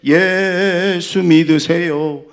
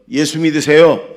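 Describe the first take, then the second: First: Loud, high, very slow holler; drawn-out street evangelism call. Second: Loud, raised call to believe; evangelistic call. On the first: Preacher recalls how they used to evangelize, drawn-out call. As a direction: stretch 예수 out long and loud. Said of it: "우리 했었잖아요". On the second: Preacher has congregation try it, loud evangelistic call. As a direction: call it out for everyone to repeat. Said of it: "해보세요". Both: Shown as a demonstration.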